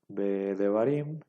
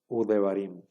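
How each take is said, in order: First: The prefix is said as a consonant 've'. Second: The prefix is said as the vowel 'u'. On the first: The speaker calls it wrong. "en lugar de que se lea Be Devarim" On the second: The speaker calls it right. "ahora se va a leer U Devarim"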